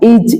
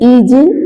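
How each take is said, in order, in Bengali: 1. শেষের ব্যঞ্জনটি প্রতিধ্বনিযুক্ত ঝাঁকুনি ছাড়াই থেমে যায়। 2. শেষের ব্যঞ্জনটি প্রতিধ্বনিযুক্ত ঝাঁকুনি দিয়ে ছাড়া হয়।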